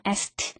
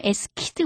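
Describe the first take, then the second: First: "asked" with the k dropped, ending in a t; "asked" as one syllable with a light final t; correct pronunciation of asked. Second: "asked" with the k sounded and an extra syllable; wrong pronunciation of asked. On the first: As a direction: say "asked" like "ast". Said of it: "이렇게 읽는다는 거". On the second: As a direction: say "asked" fully spelled out, k included. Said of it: "뭐 이거 아니고요". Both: Shown as a demonstration.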